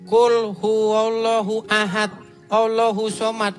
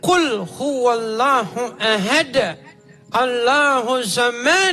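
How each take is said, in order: First: It is recited in a plain local accent. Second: It is recited in an Arabic-style accent. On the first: The speaker calls it wrong. "Saya bacanya begini" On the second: The speaker calls it right.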